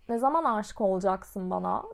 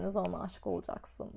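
First: Imitating his tone. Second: Mocking echo. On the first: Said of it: "ses tonlamasını yapmaya çalışacağım".

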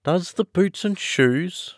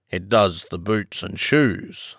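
First: High, slow, puzzled question; wondering Alice, drawn out and rising in pitch. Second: Slow, lightly solemn pronouncement; understated solemn Griffin, unhurried. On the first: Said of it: "repeated in a wondering tone". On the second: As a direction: state it slowly and gravely. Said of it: "replied very solemnly". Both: Acted.

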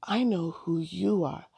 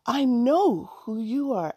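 First: Excitement just starting to show; understated eager recognition; mildly anxious excitement. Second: High, bursting with recognition; eager, swooping, higher-pitched outburst; anxious excitement. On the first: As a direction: hold back eager recognition a little. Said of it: "Allison said anxiously while jumping". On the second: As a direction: blurt it as if jumping up and down. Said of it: "Allison said anxiously while jumping up and down". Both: A narrator's reading.

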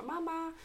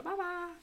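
First: High called-out "mamma"; high sing-song call of "mamma". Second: High echoed "mamma" even higher; copying the call. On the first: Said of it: "hon ropar". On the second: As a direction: echo "mamma" back up high, teasing. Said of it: "Adrian också bara". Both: Retold or imitated.

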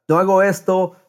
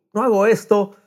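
Both takes have the same delivery.

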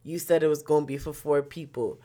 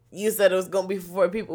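First: Said in the usual way. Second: Fast, slightly higher echo of the driver's words; mock repeat. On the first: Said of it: "He just like". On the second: Throwing the driver's own words back at him, fast and incredulous. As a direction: fire his words back at him quickly. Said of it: "We's like".

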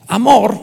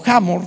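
First: Hamor said with a silent h, ah-MOR. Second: Hamor with a rasped Spanish j, HA-mor; aspirated Hamor. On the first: Hamor with no h sound, ah-MOR, for the church. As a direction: open with the vowel, Hamor as ah-MOR. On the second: Hamor with a guttural j, offering the alternate pronunciation. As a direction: breathe a harsh j into Hamor. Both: Shown as a demonstration. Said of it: "o Hamor".

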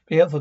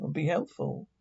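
First: Louder barked "Be helpful"; loud command. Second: Said in the usual way. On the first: Acted. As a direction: bark "Be helpful" as an order. Speaker repeats command. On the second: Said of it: "Growling voice from speaker".

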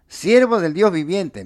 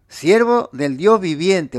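First: Said in the usual way. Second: "Dios" leaned on in a slowed, weighty phrase; each word of "Siervo del Dios viviente" drawn out, "Dios" hit hardest; slow stress on Dios. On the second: Shown as a demonstration. Preacher repeating the king's words to his flock, slow and emphatic. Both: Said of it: "Mirá lo que dijo".

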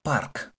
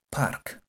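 First: "Park" cut short after the k; clipped "Park", no final vowel. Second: "park" said as one syllable, ending on the k; park repeated. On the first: Teacher shows students how "park" ends. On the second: Teacher repeats "park" so students hear the ending. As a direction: repeat "park" with a crisp final k. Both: Shown as a demonstration. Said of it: "como si llegáramos hasta la Q nomás".

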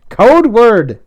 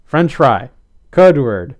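First: Loud, high, insistent order; forceful raised-voice command; demanding. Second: Weary, level-pitched order; restrained, mildly tired request; sighing. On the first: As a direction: repeat it as a firm demand. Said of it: "Nick demanded". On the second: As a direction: prompt with patient resignation. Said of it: "Nick sighed". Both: A narrator's reading.

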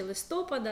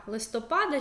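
First: Листопада stressed on the second syllable, лиСТОпада; stress on СТО. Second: Листопада stressed on the third syllable, листоПАда. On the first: Teacher giving the alternative stress, листопада stressed лиСТОпада. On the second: Teacher showing students a disputed stress, листопада stressed листоПАда. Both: Shown as a demonstration. Contrasting two possible stresses of a word.

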